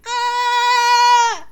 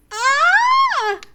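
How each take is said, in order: First: Full loud high terrified scream; horrifying scream. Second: Hesitant high scream, not full; a first, half-committed shriek; horrifying scream. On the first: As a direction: let out real terror. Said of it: "Much better". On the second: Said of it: "voice break into a horrifying scream". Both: Acted.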